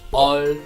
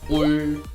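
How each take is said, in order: First: The vowel is open, like uh. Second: The vowel is rounded, like oo. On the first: "or 얼" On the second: "Many people pronounce object particle in wrong ways, like 울"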